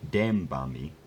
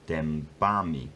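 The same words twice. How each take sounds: First: The stress is on the first syllable. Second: The stress is on the second syllable. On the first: The speaker calls it wrong. "Instead of being dębami" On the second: The speaker calls it right. "It's now jumped onto the second syllable"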